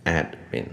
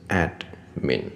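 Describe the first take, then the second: First: The word is said at normal speed. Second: The word is said slowly and deliberately. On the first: "我会念admin" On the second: "如果我念慢一点是admin"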